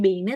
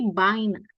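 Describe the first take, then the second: First: "beine" said bay-na with E-I; wrong spelling reading. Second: "beine" said like "baina"; correct A-I reading. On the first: Teacher showing the mistaken reading, bay-na for "beine". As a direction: literal ay vowel in "beine". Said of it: "itu bukannya bacanya beine". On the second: Teacher correcting the reading, bye-na for "beine". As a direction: open ah-ee glide in "beine". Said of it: "tapi beine". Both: Shown as a demonstration.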